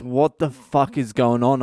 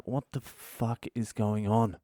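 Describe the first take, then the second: First: Baffled, exasperated outburst. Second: Slow quiet disbelief under the breath; quiet bewildered mutter. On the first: Family hugging him. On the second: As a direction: mutter it to yourself, lost. Bewildered at cops' offer. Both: Retold or imitated.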